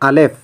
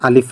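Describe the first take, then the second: First: The second vowel sounds like 'e'. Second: The second vowel sounds like 'i'. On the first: This is the Persian name of the letter. "এটা ফার্সিতে হচ্ছে আলেফ" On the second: This is the Arabic name of the letter. "আরবিতে আলিফ বলি"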